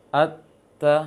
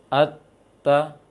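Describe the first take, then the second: The two takes are said the same way.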